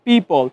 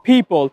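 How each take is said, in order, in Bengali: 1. প্রথম p-তে বাতাসের কোনো ফুঁ নেই। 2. প্রথম p-তে বাতাসের একটি জোরালো ফুঁ আছে। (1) "নট" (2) "একটু ধাক্কা দিয়ে বলছি"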